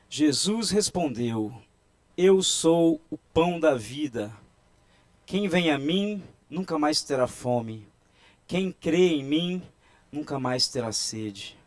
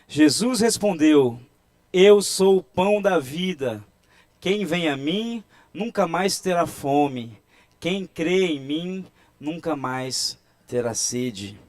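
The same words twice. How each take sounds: First: It is read with normal, ordinary force. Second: It is read with more force and loudness.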